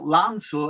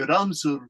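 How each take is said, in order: First: The word begins with an L sound. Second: The word begins with an R sound. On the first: This is the original French form of the word. "they use the French word L A N C E L, lancel" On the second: This is how people in Japan say it. "and they say ransel"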